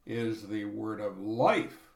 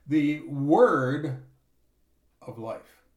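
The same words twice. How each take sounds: First: "word" kept light, the weight on "life" with a rise; stress on life. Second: "word" hit hard and loud, "of life" drops away; stress on word. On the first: Preacher correcting the reading, stress on "life". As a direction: lean into "life", not "word". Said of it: "the emphasis goes differently". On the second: Preacher showing the common reading, stress on "word". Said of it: "Emphasis on word". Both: Shown as a demonstration.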